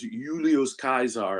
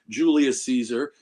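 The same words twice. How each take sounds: First: The name is said the original classical way. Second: The name is said the everyday English way. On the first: The speaker calls it right. "the way it was supposed to be pronounced" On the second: The speaker calls it wrong. "It's not"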